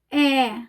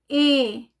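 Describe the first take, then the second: First: The vowel is open, with lips more open. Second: The vowel is closed, with lips less open. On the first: "Quando eu pronuncio E aberto, os lábios ficam mais abertos" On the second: "Quando eu pronuncio E, o lábio fica mais fechado"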